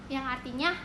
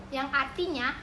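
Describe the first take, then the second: Both takes have the same delivery.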